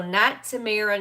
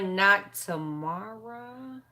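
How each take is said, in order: First: Tamara with a stressed "air" middle; careful name check. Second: Tomorrow drawn out slowly, ending on a rise; phonetic sounding-out. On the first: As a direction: sound out "Tamara" as tuh-MAIR-uh. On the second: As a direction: slowly sound out "tomorrow" as tuh-MAR-ah, questioning. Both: Shown as a demonstration. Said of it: "The phonetic pronunciation".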